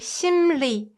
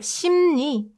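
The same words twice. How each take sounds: First: The second syllable begins with an l sound. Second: The second syllable begins with an n sound. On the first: "If you enunciate it, you can say" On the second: "we make it more convenient and replace l sound with n sound"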